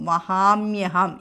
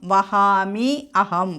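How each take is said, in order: First: The words are joined with a y sound. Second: The words are said separately, ending in i.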